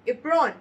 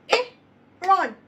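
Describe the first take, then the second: First: Said in the usual way. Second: Apron called out high and loud; emphatic apron. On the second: Shown as a demonstration. Teacher modelling the word, loud apron. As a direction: sing out apron to the class. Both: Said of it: "when it is a two-syllable word".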